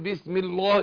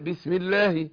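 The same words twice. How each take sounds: First: The L in Allah is heavy and deep. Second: The L in Allah is light and thin. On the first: The speaker calls it wrong. "ينفع اقول بسم الله؟" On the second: The speaker calls it right. "رققت"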